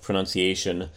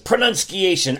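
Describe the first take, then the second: First: It is said in the speaker's normal voice. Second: It is said in a put-on cartoon character voice.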